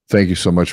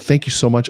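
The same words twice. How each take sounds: First: It is said flatly with no energy. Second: It is said warmly with lively energy. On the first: The speaker is not really excited. The speaker calls it wrong. "my face and my tone is saying there's no energy here" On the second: The speaker is truly excited. The speaker calls it right. "a congruent message where my body and my tone match"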